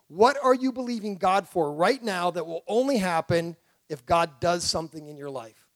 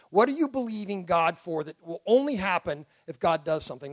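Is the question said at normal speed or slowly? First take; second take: slowly; normal. First: It is said slowly and deliberately. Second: It is said at a normal pace.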